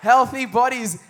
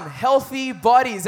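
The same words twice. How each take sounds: First: Loud slow repeat; congregation echo. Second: Slow, loud emphatic call; drawn-out preacher call for the crowd to echo; leading a call-and-response. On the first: Preacher repeats the phrase with the church, loudly. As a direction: echo the phrase back with the crowd. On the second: Preacher calls out to the church, slow and loud. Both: Shown as a demonstration. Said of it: "Everybody say healthy bodies".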